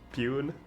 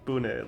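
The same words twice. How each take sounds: First: It is read with English vowel sounds. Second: It is read with Japanese vowel sounds.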